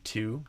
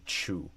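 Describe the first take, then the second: First: The word begins with a plain t sound. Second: The word begins with a ch sound. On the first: "instead of two" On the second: "a lot of Brazilians do kind of a T C H, they often say chu"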